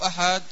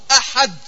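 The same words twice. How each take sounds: First: The final d sound is soft and weak. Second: The final d sound is strong and forceful. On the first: The speaker calls it wrong. "gibt's nicht" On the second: The speaker calls it right. "Du sprichst das richtig, ist sehr, sehr kräftig"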